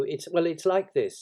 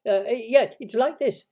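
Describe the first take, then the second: First: Hesitant, restarting, higher and louder; floundering Pooh. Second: High, loud little squeak; quick, flustered Piglet. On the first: Acted. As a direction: grope for an explanation. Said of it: "he wasn't explaining very well". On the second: A narrator's reading. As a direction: jump in hastily to help. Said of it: "said Piglet quickly".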